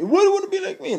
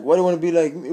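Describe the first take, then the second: First: Very high, funny comedian voice; exaggerated high-pitched comic impression; Tracy Morgan. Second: Said in the usual way. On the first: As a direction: squeal it as a celebrity impersonation. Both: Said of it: "I'm not gonna do his voice".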